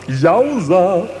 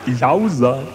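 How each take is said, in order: First: Louder, higher happy cheer; excited cheer. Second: Said in the usual way. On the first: Acted. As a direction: cheer it out to the crowd.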